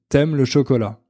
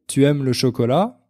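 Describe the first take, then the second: First: Tu is cut to t joined to aimes. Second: Tu is said in full before aimes. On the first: This is the everyday spoken form. "on dit" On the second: This is the standard form. "Au lieu de demander"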